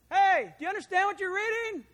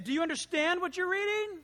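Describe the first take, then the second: First: Loud and high, calling across to a moving chariot; a runner calling out to the chariot, loud. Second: Said in the usual way. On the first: Acted. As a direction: shout the question to him as you run alongside.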